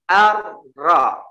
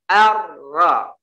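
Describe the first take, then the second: Both takes have the same delivery.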